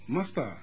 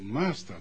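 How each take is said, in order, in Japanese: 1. 最初の音節は短く、伸ばしません。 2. 最初の音節は引き伸ばして長くします。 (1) "マスターというふうに言うんじゃなくて" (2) "最初の間を伸ばし意味に言う"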